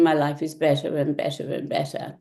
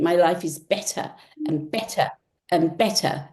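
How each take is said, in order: First: It is said flatly with no word stressed. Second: It is said with passion on the key word. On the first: The speaker calls it wrong. "as opposed to saying" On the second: The speaker calls it right. "put passion into that word that you're saying"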